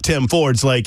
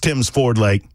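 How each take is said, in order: First: The s sound follows Ford, not Tim. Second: The s sound follows Tim, not Ford. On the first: The speaker calls it wrong. "it's not" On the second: The speaker calls it right.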